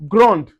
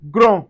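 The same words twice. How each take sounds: First: Grand louder, D sounded; feminine grande. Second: Grand louder, D silent; masculine grand. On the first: Teacher modelling feminine grande, D sounded. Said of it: "we can say grand". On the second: Teacher modelling masculine grand, no D. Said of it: "we say grand". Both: Shown as a demonstration.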